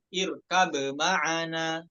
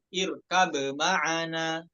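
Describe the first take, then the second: First: The b is pronounced clearly before the m. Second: The same.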